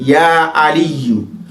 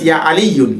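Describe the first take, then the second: First: The name ends on a bare u vowel. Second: The name ends with an added n sound. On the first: The speaker calls it right. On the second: The speaker calls it wrong.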